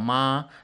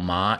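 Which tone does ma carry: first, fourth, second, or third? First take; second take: first; second. First: The pitch stays high and level. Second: The pitch rises from mid to high. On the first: It means mother. "The first tone ma is mother" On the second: It means feeling numb. "The second tone ma, feeling numb"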